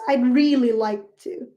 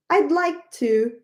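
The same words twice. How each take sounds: First: "really" leaned on for emphasis; stress on really. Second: Said in the usual way. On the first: Shown as a demonstration. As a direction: lean into "really" to show how much you want it.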